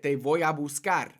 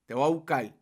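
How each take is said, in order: First: It is said in a neutral Spanish accent. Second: It is said in a Puerto Rican accent. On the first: "That's how I could say it" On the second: "But Puerto Rican way would be"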